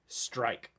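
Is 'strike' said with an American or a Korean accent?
American. It is said with an American English accent. "it's full on strike. Like just like that"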